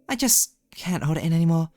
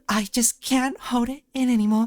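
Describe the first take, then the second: First: It is read in a plain, undramatic way. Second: It is read in a strongly dramatic way. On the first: The speaker calls it wrong. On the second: The speaker calls it right.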